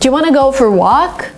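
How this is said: "Want to" is reduced to "wanna".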